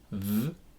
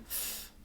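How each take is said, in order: First: The th sound buzzes with voicing. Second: The th sound is soft and unvoiced. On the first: "In though, the T H is voiced, so it causes buzzing" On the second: "In thorough, the T H is voiceless"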